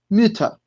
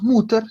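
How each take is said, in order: First: The first vowel is a rounded front 'ü' sound. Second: The first vowel is a plain 'u' sound. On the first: The speaker calls it right. "sino que decimos Mütter" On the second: The speaker calls it wrong. "acá no decimos Mutter"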